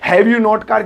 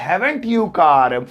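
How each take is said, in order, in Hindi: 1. Have और not अलग-अलग शब्दों के रूप में बोले जाते हैं। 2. Have और not मिलकर एक शब्द बन जाते हैं, haven't।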